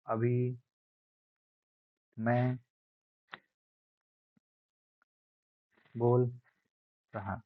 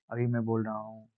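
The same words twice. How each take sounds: First: Loudness demo. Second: Said in the usual way. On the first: Shown as a demonstration. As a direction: stretch it out, rising in volume word by word. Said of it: "तो इसे ही बार-बार". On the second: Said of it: "नहीं कहते हैं".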